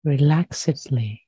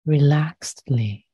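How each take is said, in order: First: "relaxedly" with -ed as its own syllable, re-LAX-id-lee; four-syllable relaxedly. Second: "Relaxedly" with the -ed as a bare t, re-LAXT-lee; three-syllable relaxedly. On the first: Meditation teacher rewording for listeners, "relaxedly" said as re-lax-id-lee. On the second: Meditation teacher trying the word "Relaxedly", said as re-laxt-lee. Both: Real, not acted. Says word two ways.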